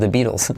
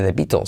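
First: The T is a soft flap. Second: The T is a hard, crisp stop. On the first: The speaker calls it right. "sino The Beatles" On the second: The speaker calls it wrong. "no se dice The Beatles"

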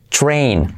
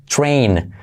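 The two takes are said the same way.

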